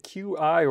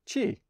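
First: The name is spelled out as two letters. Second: The name is said as one word, 'chee'.

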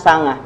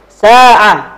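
First: The middle is pronounced as 'ng', Central Javanese style. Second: The middle is pronounced with the Arabic ain.

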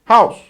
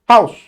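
The two takes are said the same way.

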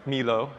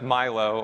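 First: The name is pronounced with Spanish sounds. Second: The name is pronounced with English sounds.

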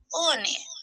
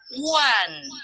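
First: It is said like Spanish o-ne, two syllables. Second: It is said like wan, one syllable. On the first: The speaker calls it wrong. "no se pronuncia ONE" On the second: The speaker calls it right. "Se pronuncia ONE"

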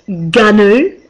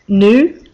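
First: It is pronounced unlike the animal's name. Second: It is pronounced like the animal's name. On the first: The speaker calls it right. "apparently it's GNU" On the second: The speaker calls it wrong. "like you say the animal"

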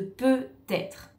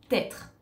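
First: The word is said with all its syllables. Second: The word is shortened, with sounds dropped. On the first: "Au lieu de peut-être" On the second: "Une autre contraction, c'est peut-être"

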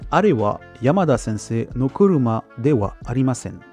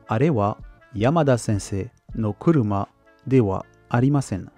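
First: The sentence is said at a normal pace. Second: The sentence is said at a slower pace.

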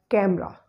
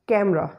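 The two takes are said the same way.

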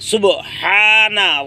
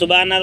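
First: The b is said with an echoing bounce. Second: The b is said flat with no bounce. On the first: The speaker calls it right. "সুব কলকলা" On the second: The speaker calls it wrong. "যারা বলেন সুবহানা রব্বিয়াল, ভুল হবে"

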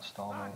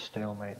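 First: The first syllable sounds like 'stall'. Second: The first syllable sounds like 'stale'. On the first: The speaker calls it wrong. "not stallmate" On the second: The speaker calls it right. "it's stalemate"

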